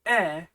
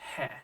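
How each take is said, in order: First: It is said as a plain vowel without h. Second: It is said with an h sound before the vowel. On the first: It marks direction, meaning to or towards. "pronounced e in cases like this, where it's used in such a way that it means to or towards" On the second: It is part of a noun. "when he is part of a noun, it will be pronounced he"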